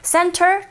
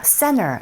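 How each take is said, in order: First: The T sound after the N is pronounced. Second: The T sound after the N is dropped. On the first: "Center 틀리지 않습니다" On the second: "거의 한 팔, 구십 퍼센트 정도가 center 이런 식으로 발음을 하게 되죠"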